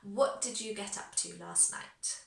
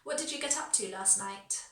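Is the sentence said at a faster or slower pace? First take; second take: slower; faster. First: The sentence is said at a slower pace. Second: The sentence is said at a faster pace.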